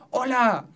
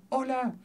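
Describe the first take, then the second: First: A higher call toward the mountain; shouted hello. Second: Same high call but much softer, like a distant echo; echo coming back. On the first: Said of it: "si yo dijera". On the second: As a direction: let it return faint. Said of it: "escucho de nuevo". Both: Shown as a demonstration.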